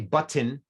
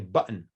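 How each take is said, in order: First: The middle t is clearly released. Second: The middle t is a glottal stop. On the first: The speaker calls it wrong. "We don't say button" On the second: The speaker calls it right. "if there's a glottal stop there. We say button"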